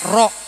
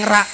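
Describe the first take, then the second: First: The syllable is said with a rounded 'o' vowel. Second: The syllable is said with an open 'a' vowel. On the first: The speaker calls it right. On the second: The speaker calls it wrong.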